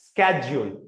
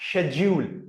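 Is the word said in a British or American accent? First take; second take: American; British. First: It starts with an 'sk' sound, American style. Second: It starts with an 'sh' sound, British style.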